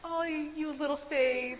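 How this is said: It is said in an affectionate, fond tone. The listener is being complimented as cute. The speaker calls it wrong.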